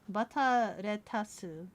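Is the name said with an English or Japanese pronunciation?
Japanese. It is said with a Japanese pronunciation.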